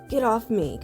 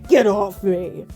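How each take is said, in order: First: It is said in a mild, casual way. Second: It is said in a forceful, aggressive way.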